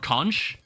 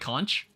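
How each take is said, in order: First: The word ends with a 'k' sound. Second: The word ends with a 'ch' sound. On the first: "Or conch?" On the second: "you pronounce the C H and you say like conch?"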